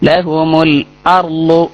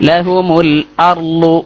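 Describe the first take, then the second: No difference in how they are said.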